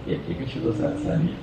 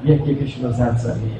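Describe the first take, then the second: First: Breathy whispered echo. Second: Said in the usual way. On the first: Acted. Repeated line, whispered echo.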